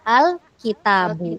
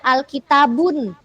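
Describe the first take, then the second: First: The word ends on a plain u vowel. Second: The word ends with an added n sound. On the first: The speaker calls it right. "Harusnya al-kitabu" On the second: The speaker calls it wrong. "Nah itu salah"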